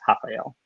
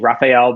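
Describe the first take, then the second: First: The name begins with an H sound. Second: The name begins with an English R sound. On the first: "in Portuguese, pronounced Rafael" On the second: "you might say Rafael"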